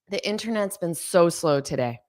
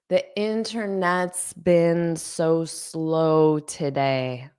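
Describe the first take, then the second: First: The sentence is spoken quickly. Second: The sentence is spoken slowly. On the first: "I'll say it fast" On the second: "I'll say it slowly"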